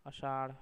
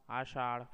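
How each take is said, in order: First: आषाढ़ with a short first a; wrong pronunciation. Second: Said in the usual way. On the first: Shown as a demonstration. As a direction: say आषाढ़ as "ashaadh". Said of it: "अशुद्ध शब्द". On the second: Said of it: "शुद्ध शब्द".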